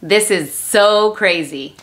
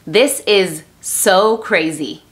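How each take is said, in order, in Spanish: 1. Se dice más rápido. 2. Se dice más lento.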